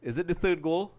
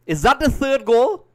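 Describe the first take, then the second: First: Slightly high, held-back query at normal volume; cautious question. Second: High, loud, drawn-out disbelieving cry; excited shouted question. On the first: Commentator afraid to celebrate checks the goal, cautious question. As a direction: ask it carefully, afraid to celebrate. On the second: Commentator sees a possible third goal, excited shouted question. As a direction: shout it, hoping it's a goal. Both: Real, not acted.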